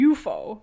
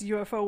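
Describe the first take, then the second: First: It is said as one single word. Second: It is spelled out as three separate letters. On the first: "like just one word, like an actual word" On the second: "instead of saying the letters, like an acronym"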